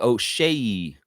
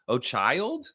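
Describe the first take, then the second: First: The second syllable sounds like 'shay'. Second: The second syllable sounds like 'child'. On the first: The speaker calls it right. "Oh, it's O'Shea" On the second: The speaker calls it wrong. "I don't think it's O'Child. O'Child doesn't sound right"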